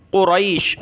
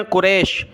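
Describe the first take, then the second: First: قریش said kuraish with an ai diphthong; قریش with رئی, ra then a glide to i; proper قریش, kuraish; correct reading. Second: قریش said as kuresh with a plain e; قریش mispronounced with رے, not رئی; wrong reading. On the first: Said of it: "یہ لفظ سیکھ لیں". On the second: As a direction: common mistake: قریش as kuresh. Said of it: "بہت سارے اس کو کیا پڑھتے ہیں؟". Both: Shown as a demonstration.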